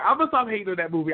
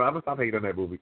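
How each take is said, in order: First: Fast, breezy promise; quick promise. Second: Lower, softer, serious promise; sober. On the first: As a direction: rattle off the promise lightly. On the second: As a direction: say it soberly and gravely. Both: Shown as a demonstration.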